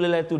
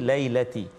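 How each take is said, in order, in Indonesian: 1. Kata itu berakhir dengan vokal 'u'. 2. Kata itu berakhir dengan vokal 'i'. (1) "Dan kita tukar mula tu lailatu dah" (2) "kena hati-hati lailati"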